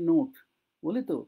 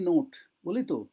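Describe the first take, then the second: No difference in how they are said.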